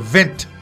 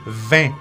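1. Les consonnes finales sont prononcées à voix haute. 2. Les consonnes finales sont muettes. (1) "Je ne vais pas dire 20" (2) "Non, c'est 20"

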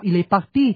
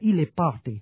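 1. Nó được phát âm theo kiểu Pháp. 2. Nó được phát âm theo kiểu Anh. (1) "Chẳng hạn như là party của tiếng Pháp" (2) "nếu mà nói là tiếng Anh nó đọc là"

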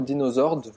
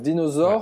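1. Le nom se termine par un son D prononcé. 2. Le nom se termine sans son D final. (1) "je ne sais pas si on prononce le D" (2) "Moi je dirais Dinosaur"

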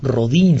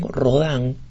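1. O nome é dito com pronúncia espanhola. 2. O nome é dito com pronúncia francesa. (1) "si lo pronunciamos en español" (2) "pronunciado en francés"

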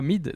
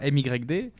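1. Le nom se dit comme un seul mot, Mid. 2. Le nom se lit à partir de son orthographe. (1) "ça se prononce Mid" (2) "ils me disent c'est toi [name]"

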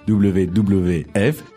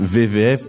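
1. Chaque W se dit « double-vé ». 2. Chaque W se dit un court « vé ». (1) "la lettre c'est W donc ça devrait être WWF" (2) "C'est marrant qu'on dise WWF"

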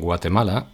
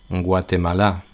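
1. El acento cae antes de la última sílaba. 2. El acento cae en la última sílaba.

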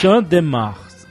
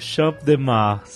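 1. O p no final de Champ é mudo. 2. O p no final de Champ é pronunciado.

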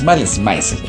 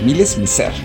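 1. El nombre se dice sin pronunciación francesa. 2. El nombre se dice con pronunciación francesa. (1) "no es Malice Mizer" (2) "es así como la pronunciación en francés"

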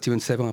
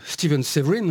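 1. Le nom se prononce avec des sons français. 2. Le nom se prononce avec des sons anglais.

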